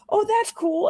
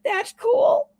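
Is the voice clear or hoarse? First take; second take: clear; hoarse. First: It is said in a clear, friendly voice. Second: It is said in a hoarse, voiceless rasp.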